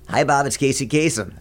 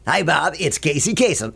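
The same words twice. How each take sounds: First: Spoken in a plain, ordinary speaking voice. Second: Spoken in a put-on, polished announcer voice. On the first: "that is the worst impression of Casey Kasem I've ever heard" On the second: "You put it on just a little bit"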